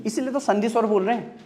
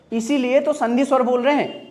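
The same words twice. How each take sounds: First: Said in the usual way. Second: Firm teacher's repeat with stress on "तो"; emphatic repeat. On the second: Shown as a demonstration. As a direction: say it again, leaning on "तो".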